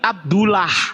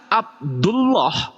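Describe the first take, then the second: First: The l sound is thin and light. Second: The l sound is thick and heavy. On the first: The speaker calls it wrong. "nggak mungkin Abdullah, salah itu" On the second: The speaker calls it right. "Tapi ketika Abdullah"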